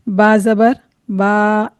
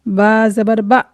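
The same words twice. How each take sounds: First: The final vowel is stretched out too long. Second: The final vowel is cut off abruptly. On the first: "ज़बर को इतना नहीं खींचें कि वो अलिफ मद्दा की आवाज़ पैदा हो जाए" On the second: "ना ही इतनी जल्दी करें कि झटका महसूस हो"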